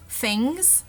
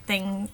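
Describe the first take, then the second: First: "things" starting with an f, like "fings"; Cockney f for th. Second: Said in the usual way. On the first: Shown as a demonstration. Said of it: "changed to an F sound". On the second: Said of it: "where it's like things".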